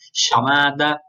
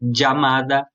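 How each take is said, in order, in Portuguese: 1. A palavra começa com um som sh. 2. A palavra começa com um som dj. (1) "quase como um C H" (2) "como se fosse um D e um J"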